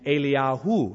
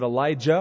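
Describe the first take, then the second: First: The name is said as Eliyahu. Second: The name is said as Elijah. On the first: The speaker calls it right. "It's actually" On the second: The speaker calls it wrong. "we mispronounce the names"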